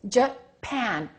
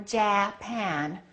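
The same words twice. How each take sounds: First: The first vowel is very short and reduced. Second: The first vowel is a full, clear vowel. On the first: The speaker calls it right. "We do it like this, Make this one disappear" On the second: The speaker calls it wrong. "So we don't say"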